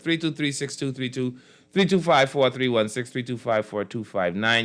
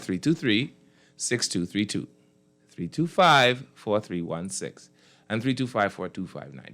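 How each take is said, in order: First: The numbers are read quickly. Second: The numbers are read slowly.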